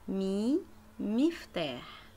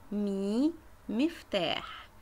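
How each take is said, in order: Both takes have the same delivery.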